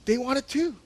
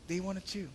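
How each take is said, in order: First: "They wanted to." raised and pressed home; emphatic. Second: "They wanted to." dropped to a much softer aside; soft echo. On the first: Preacher driving home the disciples' desire, raised emphatic line. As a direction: state "They wanted to." firmly, voice lifted. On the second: Preacher echoing his point to the congregation, much softer. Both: Real, not acted.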